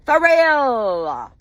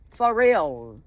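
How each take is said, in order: First: High "For real?" stretched and falling; incredulous wail. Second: Said in the usual way. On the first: Real, not acted. Wife ranting about husband's mistress, incredulous wail. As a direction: wail it in drawn-out disbelief. Angry rant in disbelief.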